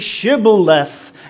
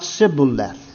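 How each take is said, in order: First: The word begins with an 'sh' sound. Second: The word begins with an 's' sound. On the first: The speaker is genuine. The speaker calls it right. "it will be Sibboleth" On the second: The speaker is a fake. The speaker calls it wrong. "and not Sibboleth"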